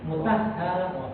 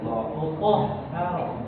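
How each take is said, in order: First: The t is thin, its vowel like a. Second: The t is thick, its vowel like o. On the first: The speaker calls it wrong. "Jangan mutah, mutahharah, mutahharah jangan" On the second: The speaker calls it right. "jadi terdengar ko gitu Pak"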